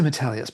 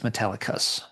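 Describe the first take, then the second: First: There is no k sound before the ending. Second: A k sound comes before the ending. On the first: The speaker calls it wrong. "I always say Metallius" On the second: The speaker calls it right. "but I guess it's Metallicus"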